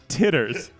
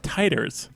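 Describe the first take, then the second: First: The first syllable sounds like 'tit'. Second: The first syllable sounds like 'tie'. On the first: The speaker calls it wrong. "It's not titters" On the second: The speaker calls it right. "they're pronounced titers"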